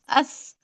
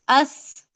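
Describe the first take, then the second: First: The final sound is th, tongue between teeth. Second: The final sound is th, tongue between teeth.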